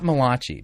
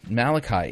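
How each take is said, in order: First: The name is said in an Italian-sounding way. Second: The name is said in an ordinary English way. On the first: The speaker calls it wrong. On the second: The speaker calls it right.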